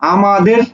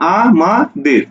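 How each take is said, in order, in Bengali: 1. শব্দটি এক টানে মসৃণভাবে বলা হয়। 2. শব্দটি ধীরে, শব্দাংশ ধরে ধরে বলা হয়।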